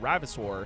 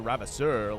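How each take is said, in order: First: The name is said with a plain English accent. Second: The name is said with a French accent.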